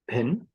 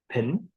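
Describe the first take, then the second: The two takes are said the same way.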